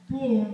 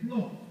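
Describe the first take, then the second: First: The word ends with an R sound. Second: The word ends without an R sound.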